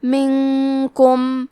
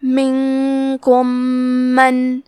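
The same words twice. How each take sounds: First: "منکم" with the noon hidden in a long nasal hum, slow; ikhfa with ghunna. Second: "منکم من" with the two meems merged into one doubled, humming meem, slow. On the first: Teacher shows the ikhfa ghunna, slow nasal. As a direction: hum through the noon before the kaf. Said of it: "غنہ کے ساتھ ادا کریں گے". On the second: Teacher shows the merging of the meems, slow nasal. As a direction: press the meems together into one doubled hum. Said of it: "غنہ اور تشدید کے ساتھ ادا کریں گے". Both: Shown as a demonstration.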